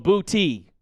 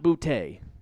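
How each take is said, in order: First: The name ends with an 'ee' sound. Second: The name ends with an 'ay' sound. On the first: The speaker calls it right. "it says B O O T E E. So booty" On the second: The speaker calls it wrong. "not bootay"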